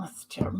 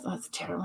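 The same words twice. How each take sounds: First: "That's terrible" whispered with no voice at all. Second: Quiet aside. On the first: Host repeating the reaction to a comment, whispered. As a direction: breathe it out as a whisper. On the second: Host reacting to a viewer's comment, quietly. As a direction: drop the voice and say it to yourself. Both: Real, not acted.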